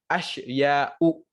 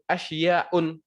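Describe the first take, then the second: First: The word ends on a vowel without n. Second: The word ends with an added n sound. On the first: The speaker calls it right. "yang benar adalah asya'u" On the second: The speaker calls it wrong. "Kalian salah kalau ketika kalian bilang asya'un"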